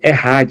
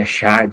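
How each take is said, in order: First: The middle consonant is a throaty 'h' sound. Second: The middle consonant is a soft 'ch' sound. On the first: The speaker calls it right. "Pronuncia-se Errad" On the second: The speaker calls it wrong. "se a gente fosse ler dessa maneira"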